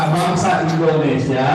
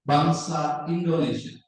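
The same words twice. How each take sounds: First: Loud "bangsa Indonesia" held open, as if more follows; comma intonation. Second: "bangsa Indonesia" slow, falling to a close; full-stop intonation. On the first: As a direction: project "bangsa Indonesia" without closing the sentence. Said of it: "Kalau koma?". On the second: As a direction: say "bangsa Indonesia" as a finished statement, voice dropping. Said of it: "Kalau titik kan". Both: Shown as a demonstration.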